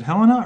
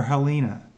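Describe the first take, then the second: First: Helena as HEL-uh-nuh, first syllable stressed; HEL-uh-nuh pronunciation. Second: Helena as huh-LEE-nuh, middle syllable stressed; huh-LEE-nuh pronunciation. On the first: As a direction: put the weight on HEL in Helena. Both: Shown as a demonstration. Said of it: "Is it Helena or Helena?".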